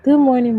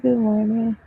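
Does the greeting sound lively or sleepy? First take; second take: lively; sleepy. First: It is said in a brighter, livelier voice. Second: It is said in a low, sleepy voice. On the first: The speaker calls it right. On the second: The speaker calls it wrong.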